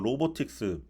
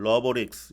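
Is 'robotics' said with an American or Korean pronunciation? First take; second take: Korean; American. First: It is said with a Korean loanword pronunciation. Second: It is said with an American-style pronunciation.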